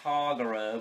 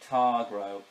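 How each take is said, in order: First: The name has an extra vowel, three syllables. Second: The name has no extra vowel, two syllables. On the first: The speaker calls it wrong. "it sounded like there was an extra A in it" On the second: The speaker calls it right. "so it's actually Targro"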